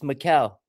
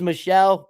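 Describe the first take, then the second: First: The name ends with a hard 'kel' sound. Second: The name ends with a soft 'shell' sound. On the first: The speaker calls it right. "but it's Mikel" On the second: The speaker calls it wrong. "looks like it says Michelle"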